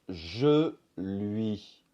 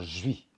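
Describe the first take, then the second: First: The L sound is clearly pronounced. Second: The L sound is dropped, giving 'jui'. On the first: "Par exemple, je lui" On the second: "va se transformer souvent en jui"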